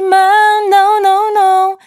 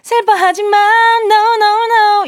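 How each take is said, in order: First: It is said flat, without smiling. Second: It is said smiling, with lifted energy.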